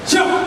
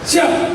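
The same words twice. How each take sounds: First: It is said in a hard, firm tone. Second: It is said somewhat softer, though still firm. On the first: "Langsung si junior jawab" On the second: "jawabannya pun agak lunak, siap, tapi masih keras begitu"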